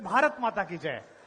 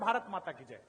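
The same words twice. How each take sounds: First: It is said louder. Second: It is said softly.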